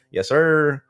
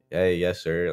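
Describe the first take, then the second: First: "Yes, sir" high and loud, hammed-up; mock formal "Yes, sir". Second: Said in the usual way. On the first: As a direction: play the over-the-top polite kid. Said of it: "or I'll be like". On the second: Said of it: "I talk to my younger siblings like that".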